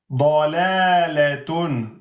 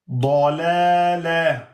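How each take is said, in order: First: The word ends with the full -atun ending. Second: The word ends on a short -a sound. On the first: The word is read without stopping on it. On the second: The reader stops on the word.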